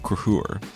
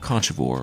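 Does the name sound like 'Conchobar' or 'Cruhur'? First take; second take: Cruhur; Conchobar. First: The name is said as two syllables, like 'Cruhur'. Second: The name is said as three syllables, like 'Conchobar'. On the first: The speaker calls it right. "the current king of Ulster is named King Cruthur" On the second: The speaker calls it wrong. "not Conchobar or whatever I was calling him last week"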